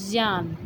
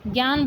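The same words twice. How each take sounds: First: ज्ञान said as ज्यान, with a ज sound; correct pronunciation. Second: ज्ञान said as ग्यान, with a hard ग; wrong pronunciation. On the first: Shown as a demonstration. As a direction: model ज्ञान softly with ज, not ग. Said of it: "बल्कि होता है". (सही उच्चारण: ज्ञान, ज की ध्वनि) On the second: Retold or imitated. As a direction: say ज्ञान the common wrong way, gyaan. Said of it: "ये ज्ञान शब्द हमारा गलत है". (गलत उच्चारण: ज्ञान को ग्यान बोलना)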